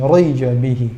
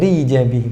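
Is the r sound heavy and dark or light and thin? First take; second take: heavy; light. First: The r is heavy and dark. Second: The r is light and thin. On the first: The speaker calls it wrong. "bukan rija bihi tapi ri" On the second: The speaker calls it right. "kita contohkan yang tipis"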